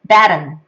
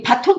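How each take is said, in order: First: It is said the native English way. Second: It is said the Korean loanword way.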